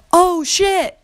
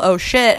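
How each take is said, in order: First: High-pitched mock yell; retold yell, high and sharp; yelled curse. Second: Said in the usual way. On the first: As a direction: shriek it like a startled curse. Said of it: "at the top of my lungs". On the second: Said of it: "drop your child and then yell".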